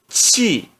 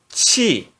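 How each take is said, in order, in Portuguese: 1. A sílaba é pronunciada no quarto tom. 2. A sílaba é pronunciada no quarto tom.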